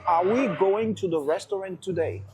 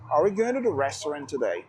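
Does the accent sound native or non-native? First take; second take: non-native; native. First: Clear pronunciation, but with a non-native accent. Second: Clear pronunciation with a native-sounding English accent. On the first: "La prononciation n'est pas mal, elle est bien" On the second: "C'est là que se trouve la différence entre la prononciation et l'accent"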